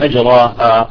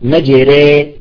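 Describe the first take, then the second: First: The vowel after r is an open a. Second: The vowel after r is tilted toward e.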